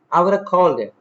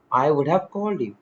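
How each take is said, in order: First: "would have" run together as "woulda"; casual spoken form. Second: "would have" in two full words; full written form. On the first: Teacher showing spoken English, casually reduced. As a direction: slur "would have" into "woulda", link "called him". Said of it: "But in spoken English". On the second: Teacher reading the written version, carefully articulated. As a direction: keep "would have" unreduced. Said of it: "In written English". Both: Shown as a demonstration.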